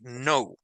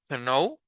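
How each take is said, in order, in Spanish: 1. No se oye ningún sonido k antes de la n. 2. Se oye un sonido k antes de la n. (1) "Sino solo es no. Acá es silenciosa" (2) "No es no, ¿verdad?"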